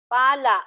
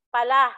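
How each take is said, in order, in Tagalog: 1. Nasa unang pantig ang diin. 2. Nasa huling pantig ang diin. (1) "tunog na malumi. Ang diin ay nasa ikalawang pansig mula sa hulihan" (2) "Ito mabilis"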